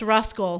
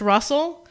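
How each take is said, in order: First: The name is said with a k sound. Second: The name is said without a k sound. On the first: The speaker calls it right. "but it's not. It's Ruscal" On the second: The speaker calls it wrong. "I always assumed that it was just Russell"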